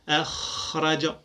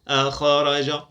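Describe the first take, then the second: First: The kh flows with much breath. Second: The kh stops with a bouncing release. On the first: The speaker calls it right. "أدع الصفة تظهر جلية" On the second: The speaker calls it wrong. "وإلا سيقلقل، فلا أقول أخرج أخ، هذا خطأ"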